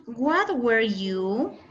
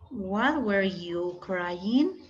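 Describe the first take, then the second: First: Very slow, each English word set apart; slow teacher modelling of English; slow model phrase. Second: Very slow, carefully spaced English question; slow classroom English demo; slow model sentence. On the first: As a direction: spell the phrase out for students. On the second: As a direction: lay out each word for the class. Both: Shown as a demonstration. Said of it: "qué podríamos decir con what".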